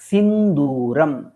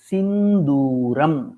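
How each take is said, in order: No difference in how they are said.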